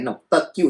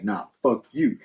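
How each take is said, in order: First: Slightly raised, higher woman's retort; arguing woman. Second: Lightly voiced man's retort at ordinary pitch; arguing man. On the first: Acted. Host voices a woman in a staged fight, mildly heated. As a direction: lightly act out her comeback. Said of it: "she's like". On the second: Host voices the man answering her, mildly dismissive. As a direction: answer her back, understated. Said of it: "He's like".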